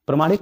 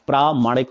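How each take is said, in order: First: प्रमाणिक said pra-maa-nik, with a short first a; teacher saying प्रमाणिक with a short first a, the mistake; wrong short a. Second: प्रामाणिक said praa-maa-nik, with a long first aa; teacher stretching the first aa in प्रामाणिक; correct long aa. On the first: Teacher shows students the wrong प्रमाणिक, with a short first a. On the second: Teacher gives students the right प्रामाणिक, with a long first aa. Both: Shown as a demonstration. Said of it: "प्रमाणिक नहीं होता है".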